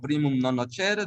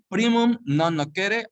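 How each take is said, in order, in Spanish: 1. Se pronuncia al estilo italiano. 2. Se pronuncia al estilo latino. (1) "o es en italiano" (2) "si es en latín"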